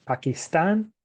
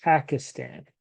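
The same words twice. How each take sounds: First: "Pakistan" with the stress on the last syllable, pa-kis-TAN; Spanish-style "Pakistan", final syllable stressed; stress at the end. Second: "Pakistan" with the stress on the first syllable, PA-kistan; English-style "Pakistan", first syllable stressed; stress at the start. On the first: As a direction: lift and land on the end of "Pakistan". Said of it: "falls on the end of the word". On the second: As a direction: hit the first syllable of "Pakistan", let the rest fall. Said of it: "it falls at the beginning of the word". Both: Shown as a demonstration.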